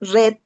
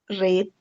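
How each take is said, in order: First: The vowel is short, rhyming with 'bed'. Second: The vowel is long, rhyming with 'seed'. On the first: It is the simple past. "Simple past" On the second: It is the present, base form. "Base form"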